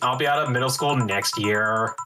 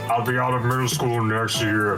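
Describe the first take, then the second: First: It is said in a normal everyday voice. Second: It is said in a deep put-on voice. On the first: "I'll just do regular" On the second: "I'm just doing a deep voice"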